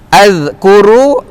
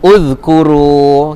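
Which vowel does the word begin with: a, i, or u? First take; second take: a; u. First: The word begins with an a vowel. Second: The word begins with a u vowel. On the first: The speaker calls it wrong. "cara bacaannya adalah" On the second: The speaker calls it right. "Jawapannya uzkuru"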